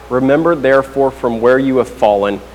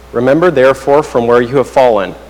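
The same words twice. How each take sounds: No difference in how they are said.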